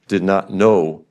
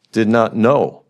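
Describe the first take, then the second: No difference in how they are said.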